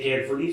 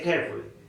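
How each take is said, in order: First: The final syllable is pronounced clearly. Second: The final syllable is barely pronounced. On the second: "in British accent... they say carefully. So L Y is not actually pronounced clearly"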